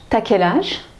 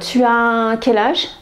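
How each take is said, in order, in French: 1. La voyelle de 'tu' tombe et se lie. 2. La voyelle de 'tu' se prononce en entier.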